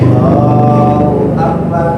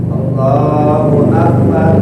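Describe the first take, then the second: Both takes have the same delivery.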